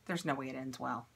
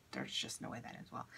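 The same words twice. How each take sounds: First: Said in the usual way. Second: There's just no way that ends well breathed out in a low, soft whisper; whispered aside. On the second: Real, not acted. Joking to viewers about cutting her own hair, in a low whisper. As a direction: drop into a hushed whisper to yourself.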